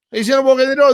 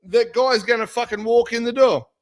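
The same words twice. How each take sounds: First: Repeated louder and higher, hammering door; emphatic repeat. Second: Said in the usual way. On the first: Real, not acted. Insisting to his co-host, an emphatic repeat. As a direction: drive the point home hard.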